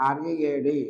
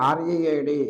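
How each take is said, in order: The two takes are said the same way.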